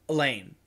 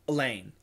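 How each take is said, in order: First: The first vowel is reduced to a schwa. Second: The first vowel is reduced to a schwa.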